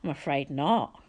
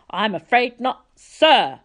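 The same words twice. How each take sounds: First: Said in the usual way. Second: Higher, louder, stressing sir; a pompous director demanding to be called sir; haughty correction. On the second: A narrator's reading. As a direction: correct the boy's manners loftily.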